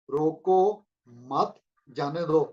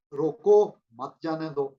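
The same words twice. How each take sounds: First: روکو، مت، جانے دو with a clear pause after روکو and another after مت; phrased so مت stands apart from جانے دو; pauses split the phrase. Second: روکو raised and loud, then a pause, then مت جانے دو run together in one breath; مت joined to جانے دو with no break; pause only after roko. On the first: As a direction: say روکو, stop, then مت alone, then جانے دو. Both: Shown as a demonstration. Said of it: "حرف ملتے ہیں تو لفظ بنتا ہے".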